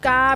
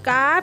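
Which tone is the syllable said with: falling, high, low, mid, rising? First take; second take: mid; high. First: The syllable is said with a level mid tone. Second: The syllable is said with a high tone. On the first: "กาเป็นเสียงสามัญ" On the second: "กาเป็นเสียงตรี"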